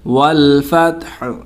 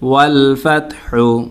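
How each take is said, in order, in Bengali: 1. বাক্যটি শুধু h ধ্বনি দিয়ে শেষ হয়। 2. বাক্যটি u স্বরবর্ণ দিয়ে শেষ হয়। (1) "ওয়াকফ করলে হবে ... এখানে হাটা সাকিন হয়ে যাবে।" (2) "হা পেশ হু"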